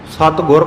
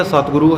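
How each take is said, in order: First: ਸਤਿਗੁਰ ending on r, "satgur"; ਸਤਿਗੁਰ with no final oo; wrong short ending. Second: ਸਤਿਗੁਰੂ ending in long oo, "satguru"; ਸਤਿਗੁਰੂ with final oo sounded; correct long ending. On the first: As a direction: stop ਸਤਿਗੁਰ at the r. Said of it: "ਪਾਠ ਨਹੀਂ ਹੈ". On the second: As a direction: finish ਸਤਿਗੁਰੂ on a full oo. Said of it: "ਹੈ". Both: Shown as a demonstration.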